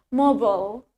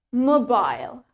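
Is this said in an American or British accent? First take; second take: American; British. First: It is said in an American accent. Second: It is said in a British accent. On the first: "sedangkan di aksen Amerika, we say it mobile" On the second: "in British accent, the accent British, we pronounce it as mobile"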